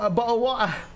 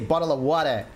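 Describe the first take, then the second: First: It is said in a British accent. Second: It is said in an Australian accent.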